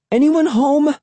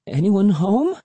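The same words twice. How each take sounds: First: High-pitched calling out; more forceful call. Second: Tentative, higher-pitched questioning call; timid call. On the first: Sister calling to whoever is in the shack, forceful call. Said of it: "a little more forcefully". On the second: Sister calling at a stranger's shack, timid call. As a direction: call out cautiously, without raising the volume. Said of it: "came out low and shaky". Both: A narrator's reading.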